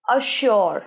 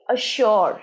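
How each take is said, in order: The two takes are said the same way.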